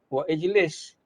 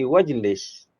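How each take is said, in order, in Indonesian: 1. Hentian glotal memisahkan 'wa' dan 'ijlis'. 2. 'Wa' langsung menyambung ke 'jlis' tanpa hentian. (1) "tidak boleh kita kata wa ijlis" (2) "jadi wajlis"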